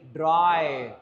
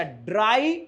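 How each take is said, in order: First: ड्राई falling, vowel closing; falling model. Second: ड्राई rising, open ai; rising model. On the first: Teacher repeats the word for students. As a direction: drop ड्राई down. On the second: Teacher models the word for students. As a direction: pitch ड्राई upward. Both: Shown as a demonstration. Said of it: "आई को बोलो आई".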